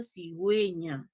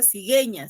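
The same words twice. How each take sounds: First: "cigüeña" said as si-gwe-ña, U audible; U sounded. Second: "cigueña" mispronounced as si-ge-ña, U dropped; wrong silent U. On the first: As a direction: correct it to "cigüeña" with a clear gwe. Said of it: "que hay que pronunciarla". ("cigüeña" haciendo sonar la U) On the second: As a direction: show the mistake: "cigueña" with no W sound. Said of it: "No hay que, eh, pronunciar". ("cigueña" mal dicho, sin sonar la U) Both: Shown as a demonstration.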